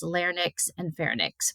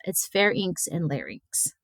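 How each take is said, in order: First: Larynx and pharynx said LAIR-nicks and FAIR-nicks, N before the Y; switched-letter mispronunciation. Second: Pharynx and larynx said FAIR-inks and LAIR-inks, N after the Y; correct pronunciation. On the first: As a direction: swap the N and Y in larynx and pharynx, softly. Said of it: "I want to switch the Y and the N". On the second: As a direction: say pharynx and larynx properly, Y before the N. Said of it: "but it's not". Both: Shown as a demonstration.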